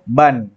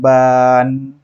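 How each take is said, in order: First: The vowel is kept short. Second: The vowel is drawn out long. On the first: The speaker calls it right. "Cukup ban" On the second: The speaker calls it wrong. "Jangan dipanjangkan ban. Itu salah, keliru ya"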